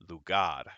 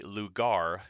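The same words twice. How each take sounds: First: It is said with a native Spanish accent. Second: It is said with a heavy American accent. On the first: The speaker calls it right. "instead of saying lugar, it is lugar" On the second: The speaker calls it wrong. "that is a very heavy American accent"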